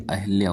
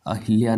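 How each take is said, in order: First: अहिल्या as "a-hal-ya"; correct form. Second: अहिल्या as "a-hil-ya"; wrong "hil" form. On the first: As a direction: swap the i of अहिल्या for a short a. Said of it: "होता है". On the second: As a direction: clear i in the middle of अहिल्या. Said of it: "नहीं". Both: Shown as a demonstration.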